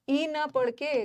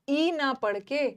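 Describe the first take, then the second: The two takes are said the same way.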